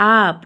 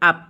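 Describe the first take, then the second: First: The vowel is drawn out long. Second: The vowel is short and clipped. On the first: The speaker calls it wrong. "আপ এনেকৈ বুলি নকওঁ" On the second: The speaker calls it right. "আমি কেনেকৈ ক'ম?"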